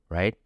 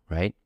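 The two takes are said the same way.

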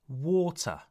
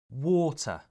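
No difference in how they are said.

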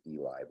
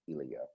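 First: The name ends in an 'eye' sound. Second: The name ends in a 'yuh' sound. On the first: The speaker calls it wrong. "I was thinking it was Eli" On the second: The speaker calls it right. "but it's Ilya"

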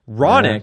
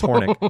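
First: The name starts without an H sound. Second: The name starts with an audible H sound. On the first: "Silent baby" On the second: "there's an H in there"

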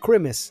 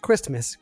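First: The word is pronounced slurred and mushy. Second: The word is pronounced clearly and crisply. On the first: The speaker calls it wrong. "I was slurring a little bit" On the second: The speaker calls it right. "I meant to say Christmas"

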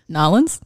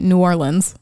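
First: It is said the local Southern way. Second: It is said the general, non-Southern way. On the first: The speaker is from the area. "But if you're from there... Or the South. I think it's Nolens" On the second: The speaker is not from the area. "if you're from here, you can say New Orleans"

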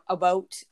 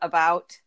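First: It is said the Yooper way. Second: It is said the speaker's local way.

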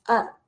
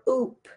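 First: The vowel is an open ah sound. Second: The vowel is a rounded oo sound. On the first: The speaker calls it right. "This has an ah sound" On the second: The speaker calls it wrong. "It's not uppy or oop"

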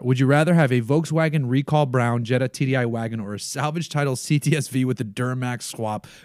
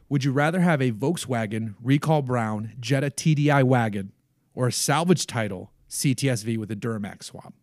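First: It is read at normal speed. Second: It is read slowly.

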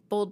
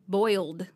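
First: The word sounds like one syllable, 'bold'. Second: The word has a clear 'oi' vowel, 'boy-uld'. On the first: "You do say bold" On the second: "That's how you're supposed to say it"

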